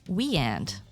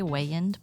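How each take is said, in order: First: The first syllable sounds like 'we'. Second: The first syllable sounds like 'way'. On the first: The speaker calls it right. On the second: The speaker calls it wrong.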